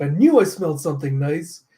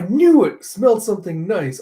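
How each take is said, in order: First: Said in the usual way. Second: Slipped take. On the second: Acted. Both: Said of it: "I was like".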